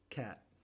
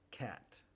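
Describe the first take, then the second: First: The final T is cut off without release. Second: The final T is clearly released and audible. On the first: "Como lo decimos normalmente sería ... no producimos el sonido" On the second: "yo estoy enunciando siempre el sonido T, aun cuando viene al final de la palabra"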